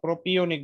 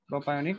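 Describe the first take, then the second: First: The middle syllables sound like 'pee-oh'. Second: The middle syllables sound like 'pie-oh'. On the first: The speaker calls it right. "প্রোপিওনিক বলতে হবে" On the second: The speaker calls it wrong. "প্রোপায়োনিক বলা যাবে না"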